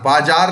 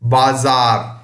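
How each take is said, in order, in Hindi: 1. बीच का व्यंजन 'ज' की आवाज़ है। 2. बीच का व्यंजन 'ज़' की आवाज़ है। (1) "बाजार नहीं हुआ" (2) "तो यहां हो गया बाजार"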